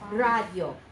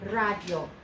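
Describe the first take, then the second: No difference in how they are said.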